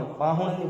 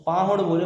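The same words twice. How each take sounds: First: पाहुड़ with a nasal n at the end; पाहुड़ ending in an n, as said wrongly; nasal wrong version. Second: पाहुड़ ending in a crisp retroflex ड़, no nasal; पाहुड़ with a clean ड़ at the end; correct hard ड़. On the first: Teacher showing aunt's mistake, nasal पाहुड़. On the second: Teacher to aunt, पाहुड़ with crisp ड़. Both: Shown as a demonstration.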